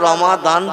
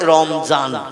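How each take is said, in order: First: The middle consonant is a d sound. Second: The middle consonant is a z sound. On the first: The speaker calls it right. "আমরা রমাদান বলি আরবি ভাষায়" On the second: The speaker calls it wrong. "ওরা দোয়াত অক্ষরটা মানে জয় অক্ষরের মতো আওয়াজ করে"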